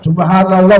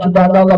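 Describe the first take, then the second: First: It is said carefully and unhurriedly. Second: It is said quickly and sloppily. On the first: The speaker calls it right. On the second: The speaker calls it wrong.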